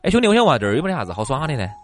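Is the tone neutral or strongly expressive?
neutral. It is asked in a plain, neutral tone.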